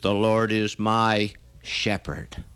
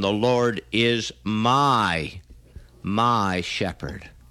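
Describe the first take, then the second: First: The stress falls on the word shepherd. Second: The stress falls on the word my.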